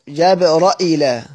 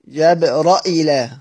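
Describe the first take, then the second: No difference in how they are said.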